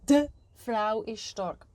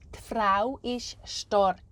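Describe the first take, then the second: First: The article is pronounced fully and clearly. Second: The article is said very short and quick. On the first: The speaker calls it wrong. "not like" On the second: The speaker calls it right. "You say it very, very shortly and quickly"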